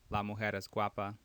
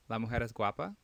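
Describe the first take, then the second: First: It is said with a statement intonation. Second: It is said with a question intonation. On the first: It asserts that the woman is pretty. "is a is a statement" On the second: It asks whether the woman is pretty. "that's a question"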